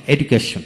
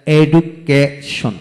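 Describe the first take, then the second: First: Said in the usual way. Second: education slowly split into its syllables. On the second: Shown as a demonstration. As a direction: pause between each syllable of education. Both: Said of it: "যতটুকু অংশ একসাথে উচ্চারণ করা যায়".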